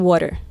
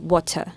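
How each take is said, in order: First: It is said with an American accent, r-colored. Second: It is said with a British accent, no r.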